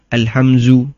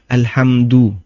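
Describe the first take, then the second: First: The middle consonant is a z sound. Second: The middle consonant is a d sound. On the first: The speaker calls it wrong. "bukan za" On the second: The speaker calls it right. "ini huruf dal bukan za"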